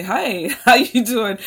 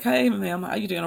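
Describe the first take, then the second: First: Imitating him. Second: Said in the usual way. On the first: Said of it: "he's gonna lean over and say". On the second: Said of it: "he's like".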